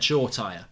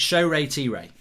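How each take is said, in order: First: The name is said with two syllables. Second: The name is said with four syllables. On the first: The speaker calls it wrong. "I've even said Shaw Tire" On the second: The speaker calls it right. "That's how you pronounce it. So it's four sy- syllables"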